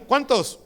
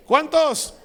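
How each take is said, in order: First: Said in the usual way. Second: "¿Cuántos?" again, higher and louder, falling at the end; emphatic repeat. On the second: Acted. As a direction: push the repeated "¿Cuántos?" up to the whole congregation. Pastor repeats the question louder. (repetición enfática, más aguda y fuerte)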